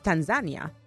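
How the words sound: It is said the way Tanzanians say it.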